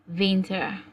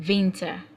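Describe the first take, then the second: Both takes have the same delivery.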